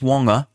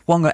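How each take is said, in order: First: The opening sound is a plain w. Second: The opening sound is breathy and aspirated. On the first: The speaker calls it wrong. "not just Whanga" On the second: The speaker calls it right. "Whanga aspirated"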